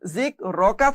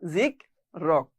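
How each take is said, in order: First: The word ends with a short vowel sound. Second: The word ends on a bare consonant sound. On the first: The reading continues without stopping. "জিক রকা ছিল" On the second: The reader stops at this word. "থামার কারণে ... যার কারণে এর উচ্চারণ হয়েছে জিক রক"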